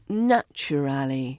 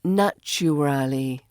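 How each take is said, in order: No difference in how they are said.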